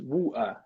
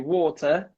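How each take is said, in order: First: The middle T is a glottal stop. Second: The middle T is a clear T sound. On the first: "the T is dropped. So that's just a glottal stop" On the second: "The classic British would say water"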